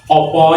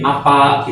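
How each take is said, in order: First: It is said in the Solo-Jogja dialect, ending in o. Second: It is said in the Ngapak dialect, ending in a.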